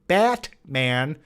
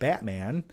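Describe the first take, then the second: First: The T is pronounced crisply and strongly. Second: The T is soft and barely released. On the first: The speaker calls it wrong. "I'll emphasize the T in Batman because some people want you to say Batman" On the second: The speaker calls it right. "a naturally fluent way of saying it, where you don't overly pronounce the T"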